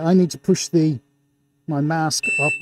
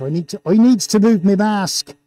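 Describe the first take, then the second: First: Said in the usual way. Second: Put-on playful broad Gloucestershire accent. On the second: Host needs to shift their mask, hammed-up Gloucestershire accent. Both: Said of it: "best Gloucestershire accent".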